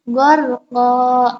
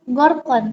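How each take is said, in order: First: The word ends on a long vowel. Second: The word ends with an n sound. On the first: The speaker calls it right. "tapi gorko" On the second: The speaker calls it wrong. "bukan gorkon"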